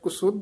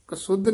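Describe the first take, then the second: First: The first syllable has a 'u' vowel. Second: The first syllable has an 'a' vowel. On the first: The speaker calls it right. "ਕੱਕੇ ਔਂਕੜ ਵੀ ਹੈ" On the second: The speaker calls it wrong. "ਕਸੁੱਧ ਨੀ ਬੋਲਣਾ"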